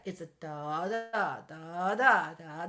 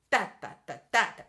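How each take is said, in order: First: "da" sung with long-short swing push and pull; swung da da. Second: "da" sung evenly, same weight each; even da da da, no swing; even straight beats. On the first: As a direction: swing the da's, lilting. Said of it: "push and pull back feeling". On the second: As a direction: straight rhythm demo. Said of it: "It's not". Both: Shown as a demonstration.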